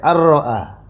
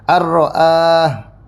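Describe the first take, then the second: First: The vowel after the glottal stop is short. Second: The vowel after the glottal stop is long. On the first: "Ar-ra'ah pendek" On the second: "Ar-ra'ah hamzanya panjang"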